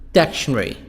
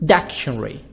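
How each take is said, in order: First: It is said with a British accent. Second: It is said with a British accent.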